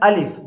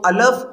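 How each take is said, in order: First: The vowel after the L is i. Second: The vowel after the L is a. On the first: The speaker calls it right. "जो असल जो हर्फ है वो है अलिफ ... लाम के नीचे जेर है" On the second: The speaker calls it wrong. "कुछ पढ़ते हैं अलफ ... ये दोनों तरीके ये गलत हैं"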